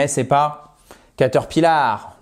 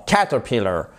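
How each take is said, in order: First: Caterpillar said the French way, ca-ter-pi-LAR; mock French caterpillar; teacher showing the mistake; wrong pronunciation demo. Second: Caterpillar stressed on CAT, first syllable; English CAT-erpillar; teacher modelling the right stress; correct stress demo. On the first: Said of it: "non, caterpillar". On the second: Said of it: "l'accent tonique se fait sur cette première syllabe". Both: Shown as a demonstration.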